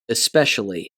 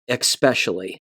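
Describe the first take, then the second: First: The word begins with a plain 'esp' sound. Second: The word begins with an 'exp' sound. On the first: The speaker calls it right. "It's just especially" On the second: The speaker calls it wrong. "not especially ... there's no X sound in the word"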